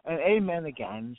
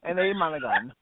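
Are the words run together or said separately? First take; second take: separately; run together. First: The words are said separately and clearly. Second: The words are run together into one word. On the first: "They don't say" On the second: "We chop up the word"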